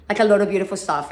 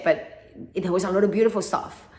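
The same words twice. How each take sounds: First: "a lot of beautiful stuff" pushed faster and louder; emphatic repeat. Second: Said in the usual way. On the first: Shown as a demonstration. To listeners, insisting on the good times, louder and faster. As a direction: hammer home "beautiful stuff" the second time.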